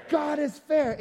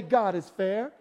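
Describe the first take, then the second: First: Call and response. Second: Said in the usual way. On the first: Shown as a demonstration. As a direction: proclaim «God is fair» to the congregation. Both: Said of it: "somebody say".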